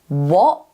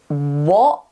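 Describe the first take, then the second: First: The t is replaced by a throat stop. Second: The same.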